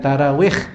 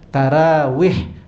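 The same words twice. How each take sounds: First: The word ends with a harsh rasping kh sound. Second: The word ends with a soft breathy h sound. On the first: The speaker calls it wrong. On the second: The speaker calls it right. "daripada huruf ha"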